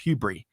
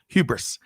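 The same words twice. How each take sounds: First: The S sound is left silent. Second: The S sound is pronounced.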